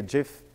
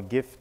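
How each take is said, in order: First: "gif" said with a soft g, like "jiff". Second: "gif" said with a hard g, as in "gift". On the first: Presenter offering ways to pronounce the file format, soft-g "gif". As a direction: open "gif" with a j sound. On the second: Presenter offering the alternative way to pronounce it, hard-g "gif". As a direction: open "gif" with the g of "go". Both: Shown as a demonstration. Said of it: "you want to pronounce that".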